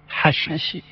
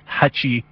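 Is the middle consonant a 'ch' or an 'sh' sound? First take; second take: sh; ch. First: The middle consonant is an 'sh' sound. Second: The middle consonant is a 'ch' sound. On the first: This is how a non-Iraqi says it. "عندما يقولها غير العراقي تصبح شاء" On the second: This is how an Iraqi says it. "التشاء"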